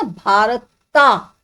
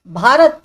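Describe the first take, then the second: First: BHARATA with a long, separated "taa" ending; भारता with the final vowel held long; drawn-out final A. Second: भारत ending on the consonant T; भारत as "BHAA-rat", without a long final vowel; no added A. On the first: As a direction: stretch भारता slowly into "bhaarat-TAA". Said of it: "नहीं होता". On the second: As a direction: say भारत briskly and firmly, closing on "rat". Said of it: "पर ए जो है ये लगाया जाता है". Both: Shown as a demonstration.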